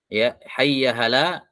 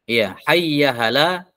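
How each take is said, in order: No difference in how they are said.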